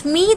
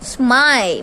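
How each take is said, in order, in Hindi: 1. स्वर ee की तरह है। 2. स्वर eye की तरह है। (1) "स्मी तो नहीं बोला" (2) "I और माई"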